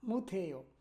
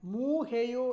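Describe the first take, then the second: First: The first syllable's final consonant is clearly sounded. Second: The first syllable's final consonant is dropped. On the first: The speaker calls it right. "আ সেউতের উচ্চারণটা করতে হবে" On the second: The speaker calls it wrong. "একটানে যদি বলেন মু হেইও, এ- এইভাবে হবে না"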